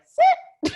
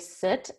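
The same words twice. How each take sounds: First: It is said in a very high-pitched voice. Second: It is said in a normal voice.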